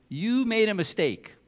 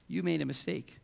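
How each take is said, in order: First: Galling accusation. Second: Said in the usual way. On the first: Retold or imitated. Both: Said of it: "he's got the gall to say".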